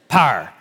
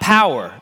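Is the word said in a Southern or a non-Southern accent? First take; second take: Southern; non-Southern. First: The word is said in a Southern accent. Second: The word is said in a non-Southern accent. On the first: The speaker calls it right. "you have to say it like a Southerner. It's power" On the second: The speaker calls it wrong. "It's not power"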